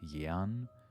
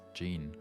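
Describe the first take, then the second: First: The name is said with a strongly German sound. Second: The name is said the usual English way. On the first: The speaker calls it wrong. "if you wanted to pronounce it really, really German" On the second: The speaker calls it right. "we would just pronounce it as Jean"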